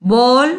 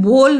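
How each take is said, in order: First: "बॉल" with an open vowel, like English ball; open rounded o. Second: "बोल" with a pure closed o, as in bole; closed o, wrong. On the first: Teacher shows the correct sound, open o in "बॉल". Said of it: "अब बॉल करके बोलते हैं". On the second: Teacher shows what not to say, closed o in "बोल". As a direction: say "बोल" with a tight long o. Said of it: "बोल नहीं कह रहे हैं". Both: Shown as a demonstration.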